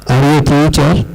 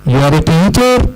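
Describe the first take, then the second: First: The voice falls at the end. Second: The voice rises at the end.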